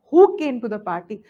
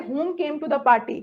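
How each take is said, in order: First: "who" punched louder at the start; corrected example. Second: "whom" said evenly, as the unacceptable word; wrong example. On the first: Teacher showing who versus whom, firm stress on "who". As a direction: hit "who" hard, then settle lower. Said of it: "understand the difference between who and whom". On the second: Teacher showing what you cannot say, "whom" left unstressed. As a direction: give "whom" without extra punch. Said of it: "आप ये नहीं कह सकते". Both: Shown as a demonstration.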